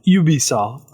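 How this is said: It is said with a French pronunciation.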